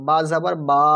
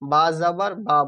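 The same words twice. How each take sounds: First: The final vowel is long and drawn out. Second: The final vowel is short, not drawn out. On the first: The speaker calls it wrong. "বা যাবার বা বলবো না" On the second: The speaker calls it right. "বা যাবার বা বলবো"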